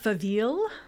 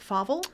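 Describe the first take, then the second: First: The name is pronounced with a French-sounding ending. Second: The name is pronounced as it is spelled. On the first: The name is assumed to be French. "they think it is perhaps of French origin" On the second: It is read straight from the spelling. "Because it's the way it is spelled, most people say Faville"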